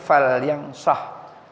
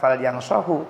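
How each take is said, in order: First: The last word ends without a final vowel. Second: The last word ends with a final u vowel. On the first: The verb is in the jussive as the answer to a condition. The speaker calls it right. "Makanya dikatakan di sini fal yang sah" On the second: The verb is in the ordinary indicative form. The speaker calls it wrong. "bukan fal yang sahu"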